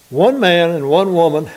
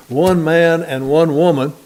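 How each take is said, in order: First: Said in the usual way. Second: Slow, deliberate stress on "One man and one woman"; emphatic. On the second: Real, not acted. Preacher stressing a point to the congregation, "One man and one woman" said slowly and emphatically. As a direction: weigh out each word of "One man and one woman". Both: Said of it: "we have to emphasize that now".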